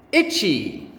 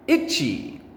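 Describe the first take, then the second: No difference in how they are said.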